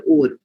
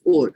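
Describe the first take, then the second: First: "or" said the Indian English way; our accent's pronunciation. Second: "or" said as if spelt with a final E; pronounced like "ore". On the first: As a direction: demonstrate "or" as our accent has it. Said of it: "So in our accent, it comes more under". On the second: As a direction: round "or" into "ore". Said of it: "if I am to put an E over here". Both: Shown as a demonstration.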